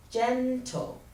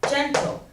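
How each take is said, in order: First: "gentle" drawn out as GEN-tle; teacher sounding out "gentle", GEN held longer; stress on first syllable. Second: Said in the usual way. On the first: Shown as a demonstration. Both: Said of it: "Stress on the first syllable".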